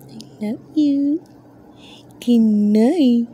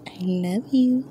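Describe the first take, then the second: First: High, slow cooing I love you. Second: Soft whispered I love you. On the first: Mom coos goodnight to her tortoise, high slow baby talk. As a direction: stretch it out sweetly, high. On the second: Owner whispers love to her sleepy tortoise, whispered. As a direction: breathe it in a whisper. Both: Real, not acted.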